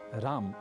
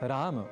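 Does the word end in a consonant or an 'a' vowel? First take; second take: consonant; 'a' vowel. First: The word ends on the bare m consonant. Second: The word ends with an 'a' vowel after m. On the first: The speaker calls it wrong. "न कहें" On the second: The speaker calls it right. "संस्कृतगत शुद्धतम उच्चारण"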